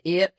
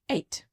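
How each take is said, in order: First: It is said in a broad Northern Irish accent. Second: It is said in a posh phone accent. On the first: This is how the speaker says it in everyday life. "But in my life, I say eight" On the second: The speaker is putting on a formal voice for the phone. "if I'm on the phone doing the push phone voice"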